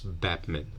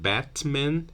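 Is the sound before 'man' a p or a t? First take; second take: p; t. First: The t becomes a p sound before man. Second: A t sound is kept before man. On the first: "common to be pronounced as Batman" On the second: "Instead of Batman in connected speech"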